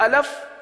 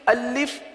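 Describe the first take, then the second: First: The second vowel is a short a sound. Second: The second vowel is a short i sound. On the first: The speaker calls it wrong. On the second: The speaker calls it right.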